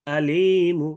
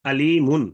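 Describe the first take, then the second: First: আলীমু with long "lii", short final "mu"; rum ending. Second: আলীমুন with full "-mun" ending; tanwin ending. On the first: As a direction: stretch the middle of আলীমু, drop the n. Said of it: "এক আলিফের সাথে মু হবে". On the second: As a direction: sound the final n in আলীমুন. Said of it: "তানবিন থাকে, দুই পেশ থাকতে পারে". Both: Shown as a demonstration.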